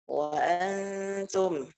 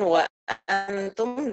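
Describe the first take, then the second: First: The glottal stop is softened toward a vowel. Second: The glottal stop is pronounced fully and clearly. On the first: "bit tashil" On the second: "Bit tahqiq"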